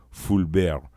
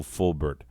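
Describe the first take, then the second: First: "Fulbert" as fool-BEHR, silent t; Frenchify "Fulbert", drop the t; French pronunciation. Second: Said in the usual way. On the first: Shown as a demonstration. Host correcting herself to the French name, French pronunciation. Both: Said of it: "or Fulbert".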